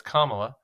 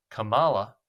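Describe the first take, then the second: First: "Kamala" said COMMA-la, stress on the first syllable; correct Kamala. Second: "Kamala" as kuh-MAH-la, stress pushed later in the name; mispronounced Kamala. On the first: Host correcting the name, "Kamala" pronounced COMMA-la with first-syllable stress. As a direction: give "Kamala" properly as COMMA-la. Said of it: "when it's Kamala". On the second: Host showing the misplaced emphasis, "Kamala" said kuh-MAH-la. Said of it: "put the emphasis on the last syllable". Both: Shown as a demonstration.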